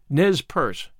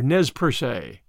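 First: The final E of Perce is silent. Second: The final E of Perce is pronounced. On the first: The speaker calls it right. "and have so pronounced it" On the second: The speaker calls it wrong. "not Ne Perce or Nez Perce"

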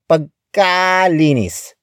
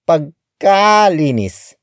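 First: The ka syllable is strongly exaggerated. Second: The same.

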